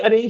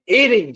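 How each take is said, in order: First: It is blended into one word, like arrange. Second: The letter A and range are said separately. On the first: The speaker calls it wrong. "ये अरेंज नहीं" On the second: The speaker calls it right. "ए और रेंज अलग अलग बोलते हैं"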